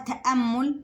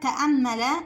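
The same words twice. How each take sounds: First: The hamza is silent with no following vowel. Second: The hamza is followed by a short a vowel. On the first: "الهمزة عليها سكون وما قبلها مفتوح" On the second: "الاتنين حركتين فتحة"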